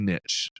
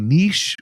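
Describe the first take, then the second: First: The word is said the plain, Southern-sounding way. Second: The word is said the fancier-sounding way. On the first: This is the speaker's own everyday way of saying it. "I always say niche. Maybe it's a Southern thing" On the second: This is how some other people say it. "some people say niche, which to me just sounds too fancy"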